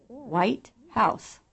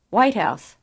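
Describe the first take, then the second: First: White House as two separate words, House given full weight; second-syllable accent. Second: WHITE House as one quick word, House weak; first-syllable stress. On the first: Teacher contrasting English items, second-syllable accent on White House. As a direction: give House its own beat, nearly equal to White. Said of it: "Second syllable accent". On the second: Teacher demonstrating English compounds, first-syllable accent on White House. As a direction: hit White and let House fall away. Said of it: "First syllable accent". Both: Shown as a demonstration.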